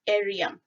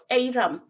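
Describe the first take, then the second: First: The y sound comes after the r. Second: The y sound comes before the r. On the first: The speaker calls it wrong. "some would say Eriam" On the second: The speaker calls it right. "instead of Eiram"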